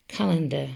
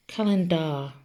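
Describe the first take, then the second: First: Said in the usual way. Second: "calendar" pronounced as written, ending in DAR; calen-DAR, last syllable rhyming with "car"; spelling pronunciation. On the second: Shown as a demonstration. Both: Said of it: "but we say calendar".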